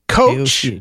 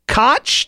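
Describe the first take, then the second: First: It sounds like the word coach. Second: It rhymes with crotch. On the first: "like a person who leads a basketball team" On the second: "to rhyme with crotch"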